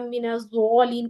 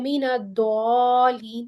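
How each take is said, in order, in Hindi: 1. मुख्य व्यंजन ‘ज़’ जैसी आवाज़ करता है। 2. मुख्य व्यंजन ‘द’ जैसी आवाज़ करता है।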